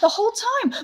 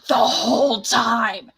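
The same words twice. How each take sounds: First: It sounds dismayed and shocked. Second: It sounds suspicious and questioning. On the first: It is a shocked realization of what happened. "oh my god it was the whole time" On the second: She is starting to piece things together. "wait a second"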